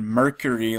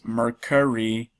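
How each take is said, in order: First: The word sounds like the planet Mercury. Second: The word does not sound like Mercury. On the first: The speaker calls it wrong. "I was saying Mercari like the planet" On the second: The speaker calls it right. "but it's Mercari"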